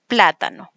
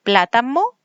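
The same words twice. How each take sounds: First: Said in the usual way. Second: Plátano said as platamo, with m instead of n, rising at the end; child's error. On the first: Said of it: "en vez de plátano". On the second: Shown as a demonstration. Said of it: "cuando ellos dicen".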